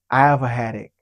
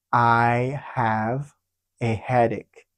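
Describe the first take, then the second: First: Said in the usual way. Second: "I have... a headache" slow, paused in the middle; slow phrase-by-phrase model. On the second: Shown as a demonstration. Teacher answering how to say it, slow and split. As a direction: separate "I have" from "a headache" unhurriedly.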